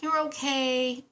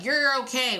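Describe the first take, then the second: First: It is said in a small, worried way. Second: It is said in a steady, confident way. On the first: "Hear that inflection? ... We get really small" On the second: "we never say it like"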